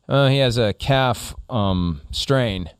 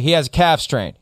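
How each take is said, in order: First: It is said hesitantly, with filler pauses. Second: It is said smoothly and directly, without pauses.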